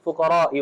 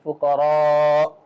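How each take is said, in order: First: The vowel before the glottal stop is short. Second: The vowel before the glottal stop is lengthened. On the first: The speaker calls it wrong. "You cannot just be fuqara'i" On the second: The speaker calls it right.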